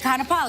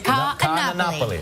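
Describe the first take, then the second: First: The opening a-sounds merge into one syllable. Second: The opening a-sounds are said as separate syllables. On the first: The speaker calls it wrong. "I say Kanapali" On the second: The speaker calls it right. "but it's Ka Anapoli"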